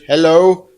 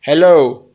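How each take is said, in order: First: Loud hello into the phone's mic; testing the mic with a loud hello; calling into the phone. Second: Louder, firmer hello into the mic; mic test hello, louder; loud hello to phone. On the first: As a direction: call it louder so the mic picks it up. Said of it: "Maybe I'm not close to it". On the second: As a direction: say hello firmly so the phone hears. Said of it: "Listen to me". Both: Real, not acted.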